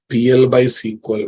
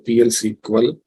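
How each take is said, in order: First: The word 'by' is spoken between the letters. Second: The letters are read with no word between. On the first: The speaker calls it right. "say P L by S Q L" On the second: The speaker calls it wrong. "don't say P L S Q L"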